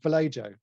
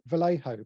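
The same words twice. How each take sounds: First: The middle consonant is an English j sound. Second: The middle consonant is not an English j sound. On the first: The speaker calls it wrong. "I call them Vallejo ... because there's a J in there" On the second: The speaker calls it right. "it should be pronounced Vallejo"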